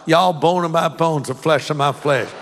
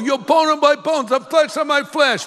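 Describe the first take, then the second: First: It is said in a Southern accent. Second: It is said in an East Coast accent.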